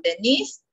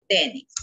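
First: Denise said de-NISE, with the stress on -nise and a rise at the end; stress on the second syllable. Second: Dennis said DEN-nis, with the stress on DEN, lower and falling; stress on the first syllable. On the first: Teacher showing the girl's name Denise, stressed on the end. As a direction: say Denise with the weight on NISE, lifting up. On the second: Teacher showing the boy's name Dennis, stressed up front and lower. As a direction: say Dennis with the weight on DEN, dropping low. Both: Shown as a demonstration. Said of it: "En la pronunciación".

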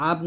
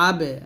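First: "আব" closed on an unreleased b; without qalqalah. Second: "আবে" with the b released in an echo; qalqalah bounce. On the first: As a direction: stop "আব" on the b without any bounce. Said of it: "আব না বলে বলতে হবে". (কলকলা ছাড়া "আব" উচ্চারণ) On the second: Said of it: "কলকলা হবে". (কলকলা করে "আবে" উচ্চারণ) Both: Shown as a demonstration.

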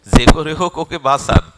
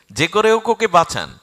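First: Very loud plea in usual pitch; urgent appeal. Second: High, loud repeated plea; desperate appeal. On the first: Hanuman asks to save Arjun, loud appeal. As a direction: beg forcefully for a life. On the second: Hanuman begs for Arjun's life, high desperate appeal. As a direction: cry out for a life to be saved. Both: Acted.

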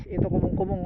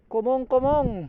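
First: Said in the usual way. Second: "Kumong-kumong" drawn out slowly, falling at the end; slow clear naming. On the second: Shown as a demonstration. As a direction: spell out "Kumong-kumong" slowly, each syllable clear.

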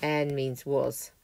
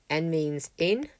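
First: En with a long vowel, slow; en, long drawn e. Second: En with a short vowel, slow. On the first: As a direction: stretch the vowel in en. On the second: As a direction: say En short and clipped. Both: Shown as a demonstration. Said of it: "Vowel length matters".

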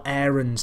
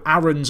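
First: "Aarons" opening like the word "air"; AIR-ons pronunciation. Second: "Aarons" opening on a short, open A; short-A pronunciation. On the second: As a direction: say "Aarons" with the vowel of "cat". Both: Shown as a demonstration. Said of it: "depending on how you wanna say it".

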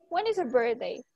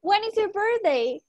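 First: Said in the usual way. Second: Higher and louder, a bright question for the class; teacher asking loudly. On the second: Shown as a demonstration. Teacher calls the birthday question loudly to her students. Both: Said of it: "¿Cuándo es tu cumpleaños?".

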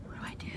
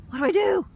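First: Soft, deflated mutter; quiet repeat. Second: High, loud panicked cry; panicked shout. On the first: Woman repeats herself softly after panicking. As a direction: say it quietly to yourself. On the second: Woman swarmed by bugs shouts in a panic. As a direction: yell it in a panic. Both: Real, not acted.

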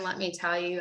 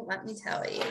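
First: Said in the usual way. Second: Softly whispered, rising at the end; whispered aside. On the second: Real, not acted. Telling the audience about bad days, whispered aside. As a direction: drop to a confiding whisper.

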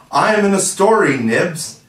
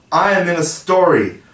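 First: Much higher, louder gleeful cheer; even more delighted. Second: Higher, louder thrilled exclaim; bursting with joy; delighted. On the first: Toodles boasting to Nibs: gleeful cheer. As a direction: crow it to Nibs. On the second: Toodles hearing his name in the story: delighted. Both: Acted.

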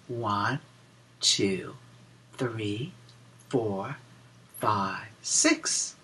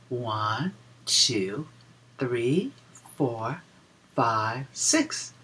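The two takes are said the same way.

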